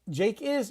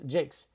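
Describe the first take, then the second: First: It is said as two separate full words. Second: It is said contracted into one syllable. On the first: "Jake is is always contracted to Jake's" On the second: "Jake is is always contracted to Jake's"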